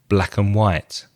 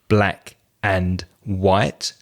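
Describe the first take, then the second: First: The words run together quickly with a reduced 'and'. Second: Each word is said separately with a full 'and'. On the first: The speaker calls it right. "We join the words together and very quickly" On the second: The speaker calls it wrong. "separating every word like this"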